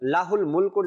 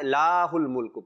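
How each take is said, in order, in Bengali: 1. প্রথম স্বরটি হ্রস্ব, টেনে বলা হয় না। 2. প্রথম স্বরটি টেনে আরও দীর্ঘ করে বলা হয়। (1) "এখানেও কোনো টান বা এমন কিছু নাই" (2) "লা লা এক আলিফ টেনে এবারে হুল মুলকু পরে"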